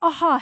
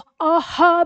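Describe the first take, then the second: First: The final breathy sound is cut short. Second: The final breathy sound is fully pronounced. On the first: The speaker calls it right. "वो भी हमारे नाक तक रह जाने वाली ध्वनि है" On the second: The speaker calls it wrong. "वो अहा भी नहीं है पूरा"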